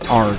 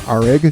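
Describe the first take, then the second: First: The word is said with one syllable. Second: The word is said with two syllables. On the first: This is the pronunciation chosen for use. "I'm going to pronounce it as Arg" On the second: This is how the spelling reads. "that reads as Arig"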